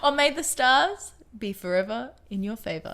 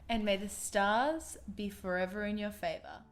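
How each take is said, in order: First: It is said at normal loudness. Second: It is said quietly.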